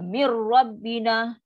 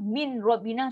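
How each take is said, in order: First: The n merges fully into a doubled r. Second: The n is pronounced clearly before the r. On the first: The speaker calls it right. "Nun dah hilang, tak ada. Sebab dia dah masuk one hundred percent tanpa dengung" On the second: The speaker calls it wrong. "min rabbina salah. Sebab apa dia dah jelas ke bunyi nun"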